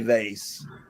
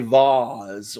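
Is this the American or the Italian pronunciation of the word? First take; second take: American; Italian. First: The word is said the way it is in America. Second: The word is said the way it is in Italy. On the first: "When you're in America, you say vase" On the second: "When you're in Italy, you say vase"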